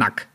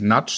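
First: The syllable ends with a k sound. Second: The syllable ends with a ch sound. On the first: The speaker calls it right. "sondern Nack hinten" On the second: The speaker calls it wrong. "ich heiße nicht Natsch"

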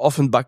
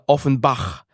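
First: It is pronounced with a French accent. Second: It is pronounced with a German accent. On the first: "aber Offenbach, wo der Name herkommt" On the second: "was eigentlich ein Deutscher hier Offenbach lesen würde"

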